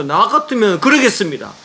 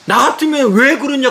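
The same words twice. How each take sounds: First: 그러겠습니다 stressed and falling, flatly declared; firm statement. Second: 왜 pushed higher, questioning rise; angry retort. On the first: Father answering his own challenge to the pastor, firm falling close. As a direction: plant 그러겠습니다 down firmly. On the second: Father challenging the pastor on the phone, rising angry question. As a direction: fling 왜 up as a challenge. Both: Retold or imitated. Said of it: "고함을 막 치니까".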